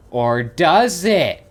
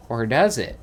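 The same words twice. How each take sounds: First: Slow, louder OR DOES IT, drawn out; mock-dramatic. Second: Said in the usual way. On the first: Gamer teasing that it might go somewhere, mock-dramatic DOES IT. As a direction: draw out DOES IT slowly and loudly, with mock suspense.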